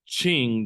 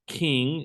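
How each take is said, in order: First: The word does not sound like English king. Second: The word sounds like the English word king. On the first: The speaker calls it right. "it's the Qing dynasty" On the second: The speaker calls it wrong. "It's not the King"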